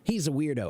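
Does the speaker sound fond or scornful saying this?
fond. It is said in a warm, fond tone. The person's quirkiness is liked. "I like him. That means I like how quirky and eccentric he is"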